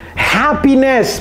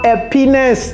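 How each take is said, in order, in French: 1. Le mot commence par un son h bien net. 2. Le mot commence sans son h. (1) "Happiness, pas happiness" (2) "Happiness, c'est le pénis"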